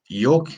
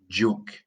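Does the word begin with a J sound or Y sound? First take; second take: Y sound; J sound. First: The word begins with a Y sound. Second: The word begins with a J sound. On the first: The speaker calls it wrong. "the funny one with saying" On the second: The speaker calls it right. "It's a j sound"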